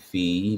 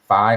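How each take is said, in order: First: The vowel sounds like 'ee'. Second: The vowel sounds like 'eye'. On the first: "pronounced F E E" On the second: "I've heard it saying phi all my life"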